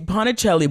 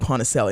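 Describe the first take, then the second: First: The name has an Italian-style pronunciation. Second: The name has an anglicized English pronunciation. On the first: This is the name's original form. "it's Ponticelli" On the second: This is the whitewashed form she uses herself. "but I say Ponticelli"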